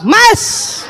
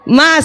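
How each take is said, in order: First: The call is pitched extremely high and sharp. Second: The call is pitched noticeably higher. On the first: The wife is exasperated and glaring. "panggilan ketiga naik tujuh oktav" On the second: The wife is getting impatient. "panggilan kedua suaranya naik setengah oktav"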